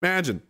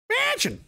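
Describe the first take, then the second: First: Said in the usual way. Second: Very high Pictou-accented "Imagine". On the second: Shown as a demonstration. Showing how Pictou people talk, high local accent. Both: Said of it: "That's how we talk there".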